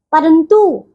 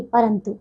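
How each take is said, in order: First: परंतु with a long final "too"; mispronounced परंतु. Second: Said in the usual way. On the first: Shown as a demonstration. Teacher shows pupils the error, long "oo" ending परंतु. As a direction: stretch the end of परंतु, "parantoo". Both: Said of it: "नहीं".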